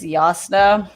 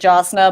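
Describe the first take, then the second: First: The name begins with a Y sound. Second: The name begins with a J sound. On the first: This is how the audiobook says it. "in the audiobook, I think it's Yasna" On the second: This is how the reader said it while reading. "I also did Jasna"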